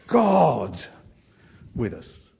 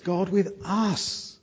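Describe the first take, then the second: First: The word God carries the stress. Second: The word us carries the stress. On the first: It is remarkable that God himself came. "So we'd want the emphasis to be on the word, Emmanuel is God" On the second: It is remarkable that he came to people so unworthy. "You might put the emphasis on us"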